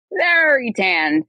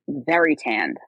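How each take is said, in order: First: VERY drawn out slow, starting high and gliding down; slow, loaded "very tanned", pitched up on VERY; emphatic stretched VERY. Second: Said in the usual way. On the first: Real, not acted. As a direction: stretch the word VERY for pointed emphasis. Repeats the phrase for emphasis.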